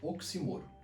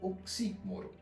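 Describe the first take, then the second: First: The stress falls on the third syllable. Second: The stress falls on the second syllable. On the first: "tem se usado mais a paroxítona, sem acento" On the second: "já vi proparoxítona"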